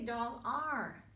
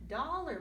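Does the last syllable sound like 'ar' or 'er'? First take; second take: ar; er. First: The last syllable is a full 'ar' sound. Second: The last syllable is a weak 'er' sound. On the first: The speaker calls it wrong. "We don't say doll R, not like R in stars" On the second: The speaker calls it right. "This time we say dollar"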